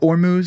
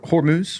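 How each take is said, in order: First: The word begins with a vowel sound. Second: The word begins with an H sound.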